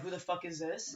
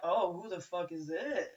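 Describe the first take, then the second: First: It sounds hostile and unwelcoming. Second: It sounds intrigued and interested.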